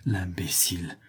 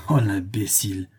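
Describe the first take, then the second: First: Breathy whisper of "L'imbécile!", words barely voiced; whispered thought. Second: Said in the usual way. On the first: A narrator's reading. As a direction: hush "L'imbécile!" to yourself in disbelief. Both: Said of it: "un besoin de rire le saisit et il pensa".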